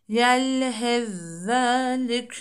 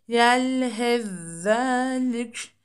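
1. İlk ünsüz, ikinci ünsüzün şeddeli hâline karışır. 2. İlk ünsüz, ikinci ünsüzün şeddeli hâline karışır.

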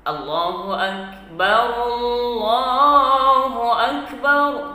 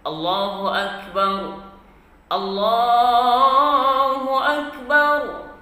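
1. Kedua frasa diucapkan dalam satu napas. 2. Jeda napas memisahkan kedua frasa. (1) "Kalau dia kita buat satu nafas, maka mesti disambungkan" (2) "kalau kita buat dua nafas, maka baru boleh diwakafkan"

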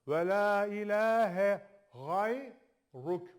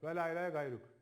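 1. Gayruk boğazdan gelen gh sesiyle başlar. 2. Gayruk sert g sesiyle başlar. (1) "Ga diyorsan hemen değiştir" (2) "Şu harfe çoğu zaman ve la ilahe gayruk diyor adam"

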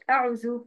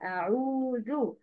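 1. الحركة تُقطع قصيرة. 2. الحركة تُمَدّ كاملة. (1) "مش ما تبقاش أعوذ أعو أعو" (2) "اكتمال للحركة"

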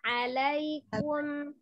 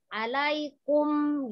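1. Suku kata terakhir nadanya tetap datar. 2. Suku kata terakhir nadanya turun tajam. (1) "jadi alaikum, biasa aja" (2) "biasanya yang ada sukun-sukunnya itu nanti kebanting. Misalnya, alaikum gitu"

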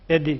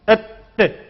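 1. d'den sonra kısa bir ünlü eklenir. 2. d abartılır ve çift gibi tutulur. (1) "hareke vermeyeceğiz. Bir. Edi gibi" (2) "Bir de mübalağa yapmayacağız. Şedde gibi. Etti gibi"

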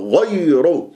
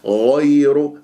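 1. الانزلاق يُنطق بدفعة قوية. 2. الانزلاق ناعم، بدون دفع. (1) "البعض يقول غير ... فلماذا تنبرها" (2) "شوف غير"

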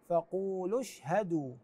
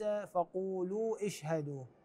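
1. تتصل الضمة القصيرة مباشرة بالكلمة التالية. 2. تبقى الضمة الطويلة قبل الكلمة التالية. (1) "فنقول فقولوا اشهدوا" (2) "وليس فقولوا اشهدوا، هذه قراءة غير صحيحة"

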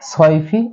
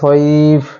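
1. শব্দটি ছোট i স্বর দিয়ে শেষ হয়। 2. শব্দটি খালি f ব্যঞ্জন দিয়ে শেষ হয়।

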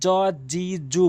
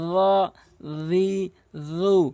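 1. ব্যঞ্জনটির উচ্চারণ ইংরেজি j-এর মতো। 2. ব্যঞ্জনটি জিভ দাঁতের কাছে রেখে উচ্চারণ করা হয়। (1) "অধিকাংশ লোক জ জি জু বলে, জিমের উচ্চারণ করে ফেলে" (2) "এখানে জর উচ্চারণ জিব্বার আগে দাঁতের আগে"

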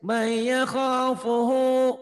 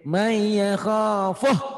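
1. Kata terakhir diakhiri dengan vokal akhir yang dipanjangkan. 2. Kata terakhir berhenti pendek tanpa vokal akhir. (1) "Tapi kalau diterusin, ... Panjang tuh ya" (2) "Ini ini kalau dihentikan jadi pendek"

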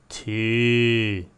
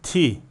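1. Ünlü uzun. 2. Ünlü kısa. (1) "Peşine ya gelseydi" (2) "Bu harf tek başına"

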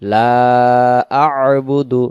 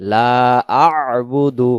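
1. 'la' দীর্ঘ করলে পরে আলাদা একটি স্বরধ্বনির শুরু শোনা যায়। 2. 'la' দীর্ঘ করলে পরে আলাদা একটি স্বরধ্বনির শুরু শোনা যায়।

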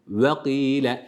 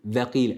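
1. V sesi yuvarlak, öne doğru çıkık dudaklarla çıkarılır. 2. V sesi, dişlerin alt dudağa değmesiyle çıkarılır. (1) "Vav harfinde dudakların önde toplanması gerekiyor" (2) "Şöyle değil. Bu Türkçedeki ve'dir"

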